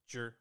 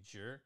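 First: Zhi is said with a falling fourth tone. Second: Zhi is said without a falling fourth tone. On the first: The speaker calls it right. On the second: The speaker calls it wrong.

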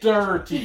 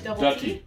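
First: The word is said with an R sound. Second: The word is said without an R sound. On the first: The speaker calls it wrong. "she'd be like, dirty. ... no, there's no R" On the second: The speaker calls it right. "What do I say? Dutty"

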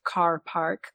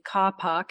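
First: The R sounds are clearly pronounced. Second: The R sounds are dropped. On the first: "like I would" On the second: "in a non-rhotic way, which means dropping the R's"

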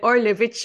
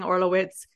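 First: The surname is said with a Polish pronunciation. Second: The surname is said with an English pronunciation. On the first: The speaker calls it right. "It's like Orlewicz or something" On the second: The speaker calls it wrong. "stop saying Orlowitz"

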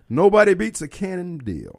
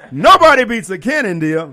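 First: It is said in a plain, low-energy way. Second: It is said with more passion and energy. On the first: The speaker calls it wrong. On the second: The speaker calls it right.

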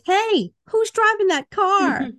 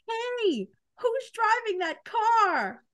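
First: It has only a mild character voice. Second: It has a stronger put-on character voice.

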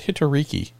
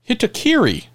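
First: The name ends with the sounds 'riki'. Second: The name ends with the sounds 'kiri'. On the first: The speaker calls it wrong. "I think I've said Hitoriki forever. I'm sorry" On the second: The speaker calls it right. "I've mispronounced your screen name"

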